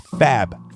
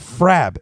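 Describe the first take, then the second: First: No R sound follows the F. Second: An R sound follows the F. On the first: The speaker calls it right. "It's Fab" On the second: The speaker calls it wrong. "It's not Frab"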